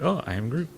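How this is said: It is said in a happy tone.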